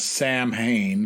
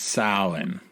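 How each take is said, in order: First: The word is read out letter by letter. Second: The word is said with its Irish pronunciation. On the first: The speaker calls it wrong. "it's written as Sam Hain" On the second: The speaker calls it right. "I'm not pronouncing it that way. It's Samhain"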